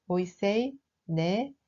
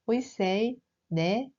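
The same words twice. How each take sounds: The two takes are said the same way.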